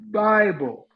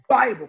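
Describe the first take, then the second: First: The first sound is eased in and stretched. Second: The first sound is popped out abruptly. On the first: The speaker calls it right. "but I could say Bible" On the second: The speaker calls it wrong. "I couldn't pop it"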